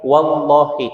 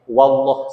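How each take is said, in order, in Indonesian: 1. Kata ini berakhir dengan vokal i. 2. Kata ini berakhir dengan huruf h tanpa vokal. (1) "Yang harusnya" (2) "tidak sempurna mengucapkan qasamnya"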